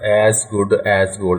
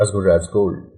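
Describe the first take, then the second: First: 'As' is said in full with a clear vowel. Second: 'As' is reduced with a weak vowel. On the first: The speaker calls it wrong. "It's not एज good एज gold" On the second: The speaker calls it right. "It's एज good एज gold"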